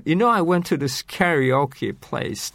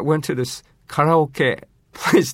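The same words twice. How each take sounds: First: Karaoke the American way, "carry-OH-kee"; 英語らしい発音. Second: Karaoke in Japanese, "ka-ra-o-ke", set apart; 日本語の発音. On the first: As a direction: say karaoke fully anglicised as "carry-oh-key". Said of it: "英語らしい発音で". (karaokeを英語風に「キャリオーキー」) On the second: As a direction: switch to crisp Japanese syllables for karaoke, "kah-rah-oh-keh". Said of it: "日本語の発音を使ってしまうと". (karaokeだけ日本語で「カラオケ」と) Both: Shown as a demonstration.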